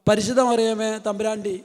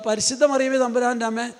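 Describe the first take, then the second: First: The last words are slurred and partly swallowed. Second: Every word is pronounced fully and clearly. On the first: The speaker calls it wrong. "നമ്മൾ പകുതി വാക്ക് വിഴുങ്ങിയിട്ട്" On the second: The speaker calls it right. "എല്ലാ വാക്കും വൃത്തിയായിട്ട് ഉച്ചരിച്ച് പ്രാർത്ഥിക്കുക"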